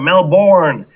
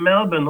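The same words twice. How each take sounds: First: Melbourne is said the American way. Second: Melbourne is said the Australian way. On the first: "as you might know it in America" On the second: "I'm actually in Melbourne"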